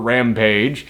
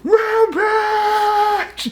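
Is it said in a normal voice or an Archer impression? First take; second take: normal voice; Archer impression. First: It is said in his normal voice. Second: It is said imitating Archer's voice.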